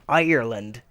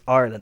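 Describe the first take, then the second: First: The word is said with three syllables. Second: The word is said with two syllables. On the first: The speaker is not Irish. The speaker calls it wrong. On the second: The speaker is Irish. The speaker calls it right.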